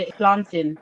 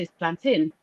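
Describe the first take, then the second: First: Plantain said the Caribbean way, as the friends say it; Caribbean pronunciation. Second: Plantain said her own Nigerian way, firm and not backing down; Nigerian pronunciation. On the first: Caribbean friends correcting her, plantain said their way. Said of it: "They look at me". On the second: Answering her Caribbean friends, plantain said her Nigerian way. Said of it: "And I look at them, I say". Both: Retold or imitated.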